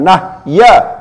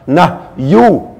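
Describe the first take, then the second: First: The word ends in an a vowel. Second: The word ends in an u vowel. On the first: The speaker calls it wrong. "bukan nahya" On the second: The speaker calls it right. "bacaannya adalah nahyu"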